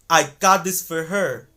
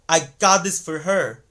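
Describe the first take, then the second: No difference in how they are said.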